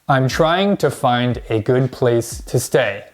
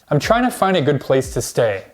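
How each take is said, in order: First: 'Trying to' is said fully as two words. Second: 'Trying to' is reduced to 'tryna'. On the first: "Most English learners will say this" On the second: "native speakers actually say this. ... we just say tryna"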